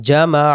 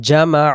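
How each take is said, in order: Both takes have the same delivery.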